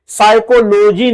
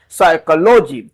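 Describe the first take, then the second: First: साइकोलॉजी with a sounded p, the error; wrong version. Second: साइकोलॉजी with a silent p, "sai-ko-lo-ji"; correct version. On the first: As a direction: show the misread साइकोलॉजी. (साइकोलॉजी का गलत उच्चारण) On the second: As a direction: model साइकोलॉजी with no p. (साइकोलॉजी बिना "प" के) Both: Shown as a demonstration. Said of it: "साइकोलॉजी नहीं है".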